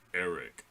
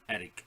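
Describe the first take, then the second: First: The name is said without a foreign accent. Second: The name is said with a foreign accent. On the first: "all of a sudden he goes Eric" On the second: "he was like Eric"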